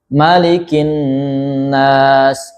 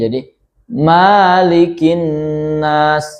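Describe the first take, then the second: First: The vowel in 'ma' is kept short. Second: The vowel in 'ma' is drawn out long. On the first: The speaker calls it right. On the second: The speaker calls it wrong.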